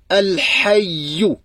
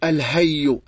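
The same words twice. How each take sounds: First: The h is a tight sound from the throat. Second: The h is a light, open-throat breath. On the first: The speaker calls it right. "Mais là, c'est, ça touche" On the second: The speaker calls it wrong. "La majorité des francophones, ils le prononcent comme, comme l'ha"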